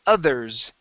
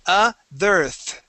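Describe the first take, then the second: First: The word ends with an s/z sound. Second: The word ends with a th sound. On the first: The speaker calls it right. "at the end we're going to end with a uh, that S or that Z sound" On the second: The speaker calls it wrong. "There you said otherth. Okay, ending with another T H"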